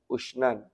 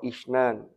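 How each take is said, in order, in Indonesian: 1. Kata ini diawali dengan vokal 'u' yang dibulatkan. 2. Kata ini diawali dengan vokal depan 'i'. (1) "kelawan dhammah hamzahnya" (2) "dan kasra"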